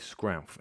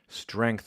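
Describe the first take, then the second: First: The word begins with an 'skr' sound. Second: The word begins with an 'str' sound.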